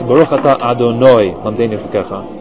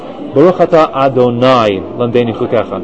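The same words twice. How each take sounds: First: Adonai ends with a 'noi' sound. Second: Adonai ends with a 'nai' sound. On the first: The speaker calls it right. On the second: The speaker calls it wrong. "do not say this"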